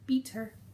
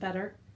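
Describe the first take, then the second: First: The word is said in an Australian accent. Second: The word is said in a non-Australian accent. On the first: It imitates how someone else said it. "She's Australian, so she kept saying better" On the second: It is the speaker's own usual way of saying it. "which is how I would pronounce that word"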